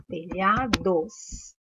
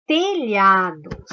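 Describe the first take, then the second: First: Telhados drawn out very slowly, syllable by syllable. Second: Slow teacher reading. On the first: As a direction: spell out Telhados slowly so they hear the LH. (Telhados bem devagar, sílaba por sílaba) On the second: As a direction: say telhados slowly and loud, each syllable clear. (telhados lento, bem pronunciado) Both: Shown as a demonstration. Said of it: "Qual é o dígrafo da palavra telhados?".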